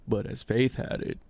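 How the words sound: It is said in an imitation of another voice.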